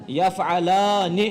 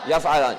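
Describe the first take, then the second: First: Drawn out, syllable by syllable; slowly built up. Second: Said in the usual way. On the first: Shown as a demonstration. Teacher assembles the verb form for students, slowly syllable by syllable. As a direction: stretch یفعلان slowly, each part separate.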